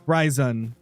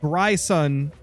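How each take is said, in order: First: The middle consonant is a buzzing Z sound. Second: The middle consonant is a hissing S sound. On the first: "pronounce the S as a Z" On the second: "the more common ones"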